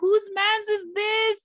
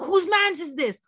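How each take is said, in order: First: It sounds pleased and admiring. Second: It sounds angry and irritated.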